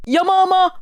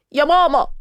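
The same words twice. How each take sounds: First: Higher, louder tearful wail for mom; crying wail. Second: Crying call. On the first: Girl wailing for her mom after the insult, higher tearful wail. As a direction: wail it like a child. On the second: Girl crying to her mom after being called an elephant, mock tearful. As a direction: whine it like a hurt kid. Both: Acted. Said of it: "لقيتها عيطت".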